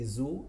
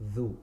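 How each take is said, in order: First: The consonant is a z sound. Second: The consonant is a soft th sound. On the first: The speaker calls it wrong. "they say zu" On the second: The speaker calls it right. "instead of dhu"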